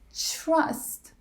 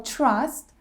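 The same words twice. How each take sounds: First: It begins with a ch-like sound. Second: It begins with a plain t sound. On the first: "it's really common to pronounce T R as C H R" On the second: "trust becomes"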